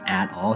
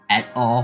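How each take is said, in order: First: It is said as the plain phrase 'at all'. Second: It is said like the Latin abbreviation 'et al'. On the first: The speaker calls it right. "instead of saying at all" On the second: The speaker calls it wrong. "he says et al, which is just wrong"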